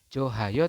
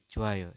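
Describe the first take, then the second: First: The h sound in the middle is pronounced. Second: The h sound in the middle is silent. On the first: The speaker calls it wrong. "bukan Johayo" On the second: The speaker calls it right. "Tidak terbaca hanya"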